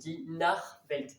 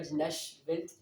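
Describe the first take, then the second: First: The ch is said like a throaty R. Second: The ch is not said like a throaty R. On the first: The speaker calls it right. "il se prononce R" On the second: The speaker calls it wrong. "là je dis pas die Nachwelt"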